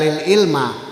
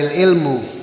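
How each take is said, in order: First: The word ends with an a vowel. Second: The word ends with a u vowel.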